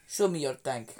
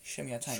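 First: It is said in a put-on Russian accent. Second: It is said in the speaker's normal accent.

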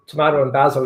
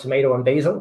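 First: It is said with a British accent. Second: It is said with an American accent.

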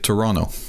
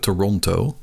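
First: The second t is left silent. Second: The second t is clearly pronounced. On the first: This is how Canadians say it. "als je uit Canada komt, dan zeg je Toronto. Dus die tweede T die blijft dan stil" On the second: This is how non-Canadians say it. "wij zeggen als niet-Canadezen zeggen we Toronto"

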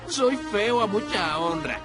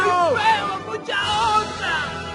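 First: It is said at a normal, quieter volume. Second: It is said much louder, almost shouted.

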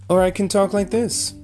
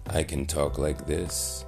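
First: The voice is pitched high. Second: The voice is pitched low and deep. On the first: "I'm talking in a higher tone of voice" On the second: "I'm talking in a much deeper tone of voice"

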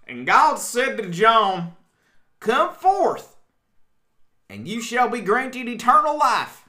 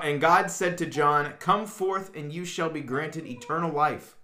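First: It is said in a put-on accent. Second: It is said in a natural voice.

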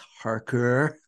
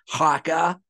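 First: The r sounds in the name are pronounced. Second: The r sounds are dropped from the name. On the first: The speaker calls it right. "It's Harker" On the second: The speaker calls it wrong. "my mass accent makes it sound like Haka"

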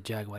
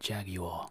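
First: The word is said with an American pronunciation. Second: The word is said with a British pronunciation. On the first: "the British people don't say Jaguar" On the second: "They say the Jaguar"

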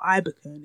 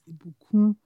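First: It is said flatly with English-style intonation. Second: It is said with melodic Yoruba tones. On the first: The speaker calls it wrong. "it's not Ibukun or Ibukun" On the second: The speaker calls it right. "It's Ibukun. You have to pronounce it with a bit"

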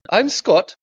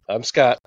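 First: It is said with a German accent. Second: It is said in his plain accent.

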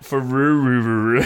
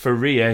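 First: The name ends with a 'ruru' sound. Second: The name ends with a 'ria' sound. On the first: The speaker calls it wrong. "It's not Faruru, as we were saying last week" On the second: The speaker calls it right. "It's pronounced Faria"

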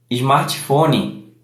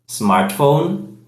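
First: It is said with a Brazilian Portuguese accent. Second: It is said with an English accent.

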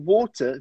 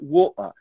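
First: The middle consonant is a clear t sound. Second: The middle consonant is a glottal stop. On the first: "No inglês britânico, a gente pronuncia bottle of water" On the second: "o que a gente chama de glottal T. Eles cortam e fazem uma pausa"

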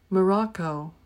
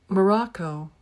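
The two takes are said the same way.

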